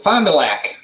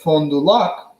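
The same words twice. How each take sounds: First: It is pronounced the local Wisconsin way. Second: It is pronounced the French way. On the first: "everyone in Wisconsin calls it Fond du Lac" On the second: "which is the French pronunciation"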